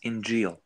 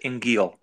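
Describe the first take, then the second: First: The middle consonant is a soft J sound. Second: The middle consonant is a hard G sound. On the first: This is how the Quran has it. "That's with a Jim" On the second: This is how it is said in Egypt. "in Egypt, they would pronounce it Ingil"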